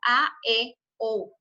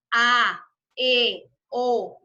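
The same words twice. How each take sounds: First: Said in the usual way. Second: A, E, O each pushed out loud with the whole mouth; forceful vowel drill; strong vowels. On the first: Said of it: "todo el músculo de la boca". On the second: Shown as a demonstration. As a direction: open wide and punch each vowel. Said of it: "tengo que utilizar todo el músculo de la boca".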